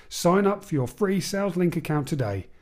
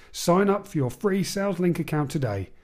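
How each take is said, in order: No difference in how they are said.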